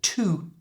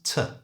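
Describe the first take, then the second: First: The vowel is a full, long 'oo' sound. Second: The vowel is reduced to a short schwa. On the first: "change the vowel sound in to, the oo" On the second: "to a schwa sound"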